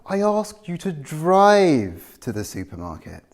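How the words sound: The word drive carries the main stress. They should have driven, not walked. "I'm contrasting drive with walk"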